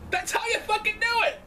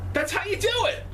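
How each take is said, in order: First: High, stronger thrilled cry; excited exclaim. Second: High thrilled cry; excited exclaim. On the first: Fan cheering the wrestling segment, even more excited. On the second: Fan cheering the wrestling segment, excited. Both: Real, not acted.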